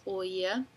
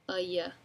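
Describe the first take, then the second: First: The first vowel is a full, clear o. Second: The first vowel is reduced, like a. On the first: "I really enunciate as oya" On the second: "since there's no stress, it kind of sounds like"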